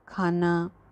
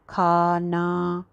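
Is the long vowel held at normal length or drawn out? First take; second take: normal; drawn out. First: The long vowel is held at a normal length. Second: The long vowel is drawn out excessively. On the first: The speaker calls it right. "कहते हैं ना हम" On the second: The speaker calls it wrong. "ऐसे तो नहीं कहते"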